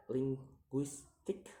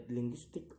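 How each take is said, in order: First: "linguistic" split into syllables; separated syllables on "linguistic". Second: Said in the usual way. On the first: Shown as a demonstration. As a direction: sound out "linguistic" piece by piece. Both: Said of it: "count the word syllable backwards".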